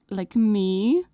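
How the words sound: It is said in a coy, flirty way.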